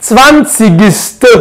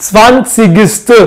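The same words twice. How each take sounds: The two takes are said the same way.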